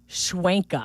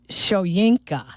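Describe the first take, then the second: First: The name is said as Schwen-ka. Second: The name is said as Sho-yin-ka. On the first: The speaker calls it wrong. "not Schwenka" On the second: The speaker calls it right. "the it is Shoyinka"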